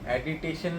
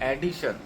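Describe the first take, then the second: First: The word has four syllables, with an extra syllable. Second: The word has three syllables, with no extra syllable. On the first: The speaker calls it wrong. "ऍडिटेशन नाही" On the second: The speaker calls it right.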